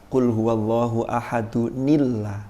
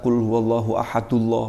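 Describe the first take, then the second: First: Ahad is linked to Allah with an n sound. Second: Ahad runs straight into Allah with no added sound. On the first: The speaker calls it right. "Harusnya gimana?" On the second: The speaker calls it wrong. "wah malah keliru juga"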